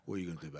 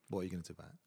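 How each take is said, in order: First: It is said aggressively in a South London accent. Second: It is said in his plain accent.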